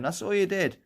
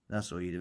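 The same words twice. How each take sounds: First: It is said in a higher-pitched voice. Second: It is said in a lower voice.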